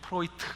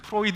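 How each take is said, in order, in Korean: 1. 이 이름은 날카로운 t 소리로 끝납니다. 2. 이 이름은 부드러운 d 소리로 끝납니다. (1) "요즘 프로이트 이렇게 발음하더라고요" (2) "옛날에는 프로이드 이렇게 했는데"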